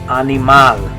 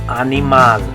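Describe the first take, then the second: First: It is said with Spanish vowel sounds. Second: The same.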